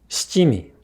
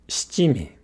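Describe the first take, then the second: The two takes are said the same way.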